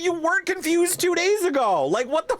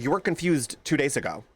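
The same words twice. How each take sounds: First: High, incredulous mock outburst through laughter; laughing outraged retort. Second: Said in the usual way. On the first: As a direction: squeal the retort in mock disbelief. Laughing replay of her retort.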